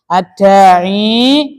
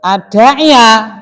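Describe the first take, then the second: First: "adai" drawn out, ending on long i; hidden case ending. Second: Slow "adai ya" with a clearly sounded final -ya; audible fathah ending. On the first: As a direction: say "adai" with the case vowel left unspoken. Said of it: "Muqaddarah. Berarti contohnya adalah adai". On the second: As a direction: let the ending of "adai ya" be plainly heard. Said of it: "kan kelihatan toh?". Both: Shown as a demonstration.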